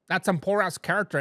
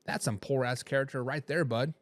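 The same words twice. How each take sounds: First: Said in the usual way. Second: Put-on lightly done Wisconsin accent, lower and softer; a hint of a folksy Wisconsin accent. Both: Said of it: "in my best West, Wisconsin voice".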